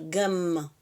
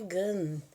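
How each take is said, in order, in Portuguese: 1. A palavra termina com os lábios bem fechados. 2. A palavra termina em som de vogal nasal. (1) "Aí você frisa aqui, cerrando a articulação labial" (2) "se eu chegasse a um fala, a falante em hebraico, falava assim, ah, gan"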